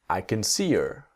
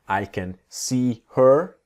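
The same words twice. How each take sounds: First: The words run together with her reduced. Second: Each word is said separately and clearly.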